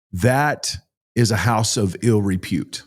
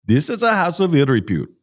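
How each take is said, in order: First: Said in the usual way. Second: Higher, clipped imitation of an Indian driver's accent; harsh Indian accent. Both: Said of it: "his accent was so harsh".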